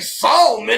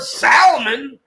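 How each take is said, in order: First: The L sound is clearly pronounced. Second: The L sound is left silent. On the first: The speaker calls it wrong. "even if you do use the ale, I've never heard anybody say Solomon" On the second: The speaker calls it right. "I've heard Salmon"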